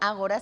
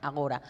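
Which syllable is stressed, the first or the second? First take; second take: first; second. First: The stress is on the first syllable. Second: The stress is on the second syllable. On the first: An ancient Greek assembly or its meeting place. "Si uno lo pone con tilde y lo hace esdrújula" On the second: An old, disused way of saying now. "si no le pone tilde y pone agora"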